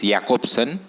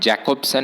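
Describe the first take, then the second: First: The name begins with a Y sound. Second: The name begins with a J sound. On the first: The speaker calls it right. "this letter is pronounced as Y in many European languages" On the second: The speaker calls it wrong. "It is not Jacobson"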